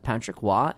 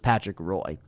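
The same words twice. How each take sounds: First: The surname is said differently from its spelling. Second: The surname is read as it is spelled. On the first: This is how the name is actually pronounced. The speaker calls it right. "it is in fact Patrick Roy" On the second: This is how the speaker wrongly assumed it sounded. The speaker calls it wrong. "I thought it was Patrick Roy"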